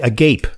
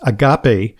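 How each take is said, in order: First: It sounds like the English adjective agape. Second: It does not sound like the adjective agape. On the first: The speaker calls it wrong. "A lot of people say agape. You know, it's like as if your mouth were agape" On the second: The speaker calls it right. "No, but it's agape"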